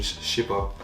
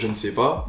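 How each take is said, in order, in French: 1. La forme courte se prononce, sans 'ne'. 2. La forme pleine se prononce, avec 'ne'. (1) "elle dirait" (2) "normalement, on- en français, on devrait dire"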